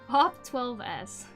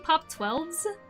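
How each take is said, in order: First: The S is spoken as a separate letter. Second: The S is joined as a plural ending. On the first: The speaker calls it wrong. "Some people pronounce it Pop twelve S" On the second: The speaker calls it right. "the way I read it was the correct way"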